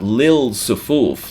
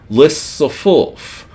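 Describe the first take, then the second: First: The l is clearly heard before the s. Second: The l merges into a doubled s sound. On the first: The speaker calls it wrong. "not lil sufuf like it's written" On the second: The speaker calls it right. "but rather lis sufuf"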